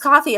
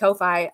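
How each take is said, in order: First: The first vowel sounds like 'caw', as in coffee. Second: The first vowel sounds like 'coe', as in go. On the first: "It's coffee apparently" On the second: "I always pronounce it Ko-Fi"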